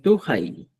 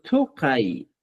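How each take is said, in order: First: Tukai in Chanca Quechua, k softened to a throaty h; pronunciación chanca. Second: Tukai in Collao Quechua, with strongly released consonants; slow, marked Collao tukai; pronunciación collao. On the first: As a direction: say tukai simply, like "tu-jai". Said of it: "Esa es la diferencia en la pronunciación". (tukai chanca, suave, como "tujai") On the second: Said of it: "en la variante collao". (tukai collao, lento y con consonantes marcadas) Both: Shown as a demonstration.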